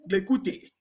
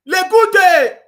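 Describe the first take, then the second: First: Said in the usual way. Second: High, loud laughing Lekute; mocking laughter. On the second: Real, not acted. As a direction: laugh the name out in ridicule. Mocks the name Lekute.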